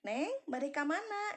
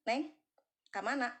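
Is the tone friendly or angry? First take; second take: friendly; angry. First: It is said in a friendly tone. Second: It is said in an angry tone.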